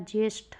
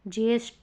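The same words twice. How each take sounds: First: The final consonant is aspirated. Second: The final consonant is unaspirated. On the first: The speaker calls it right. "होता है" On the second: The speaker calls it wrong. "नहीं होता"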